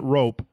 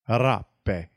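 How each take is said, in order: First: The name sounds like the English word rope. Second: The name does not sound like rope. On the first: The speaker calls it wrong. "It's not rope" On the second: The speaker calls it right. "That's how you say it"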